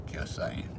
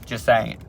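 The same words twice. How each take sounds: First: A breathy whispered Just saying, no voice at all. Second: Said in the usual way. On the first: Shown as a demonstration. Vlogger whispers the aside to viewers, sly whisper. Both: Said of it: "repeated whisper".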